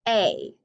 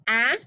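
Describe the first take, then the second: First: "a" as ay, like the letter's name; long A sound. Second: "ah" as in ask, a short vowel; short A sound. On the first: Teacher leading vowel practice, long "a" as ay. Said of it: "for the long sound". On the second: Teacher leading vowel practice, short "ah". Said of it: "for the short sound". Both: Shown as a demonstration.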